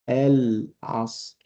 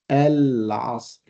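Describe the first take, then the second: Both takes have the same delivery.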